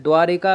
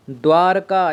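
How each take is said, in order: First: द्वारिका with an i after r; wrong form. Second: द्वारका with no i, dvaar-kaa; correct form. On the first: Teacher showing the mistake, द्वारिका as dvaa-ri-kaa. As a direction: add a short ri in द्वारिका. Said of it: "तो वो गलत है". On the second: Teacher giving the right name, द्वारका as dvaar-kaa. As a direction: go from r straight to k in द्वारका. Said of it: "ये सही है". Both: Shown as a demonstration.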